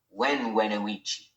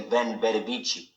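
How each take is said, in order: First: The words begin with a w sound. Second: The words begin with a v sound. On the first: This is how it was said back then. "the V was more like a W" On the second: This is how people say it today. "when they say"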